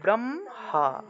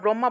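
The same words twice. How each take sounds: First: The m sound comes before the h sound. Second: The h sound comes before the m sound. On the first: The speaker calls it right. "এটা হবে ব্রহ্মা" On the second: The speaker calls it wrong. "ব্রহ্মা আমরা ব্রহ্মা বলে থাকি ঠিক না, কিন্তু আস- এটা আসলে ব্রহ্মা হবে না"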